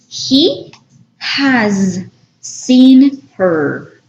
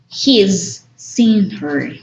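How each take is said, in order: First: The word has is said in full. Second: Has is contracted to a short s sound. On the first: "the long form" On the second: "just omit the H and A, apostrophe S"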